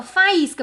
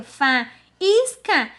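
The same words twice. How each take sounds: First: Said in the usual way. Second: FAÍSCA broken as "fa... ís... ca"; split into syllables. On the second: Shown as a demonstration. Teacher showing how it ends up divided, syllable by syllable. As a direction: pause between each syllable of faísca. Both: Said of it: "Então fica".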